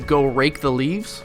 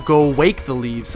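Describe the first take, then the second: First: The word rake begins with a clear R sound. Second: The word rake begins with a W sound.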